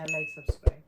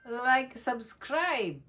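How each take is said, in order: First: It is said in a flat, unenthusiastic tone. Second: It is said in an enthusiastic, lively tone.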